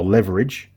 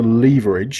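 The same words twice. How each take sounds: First: The word has an American pronunciation. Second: The word has a British pronunciation.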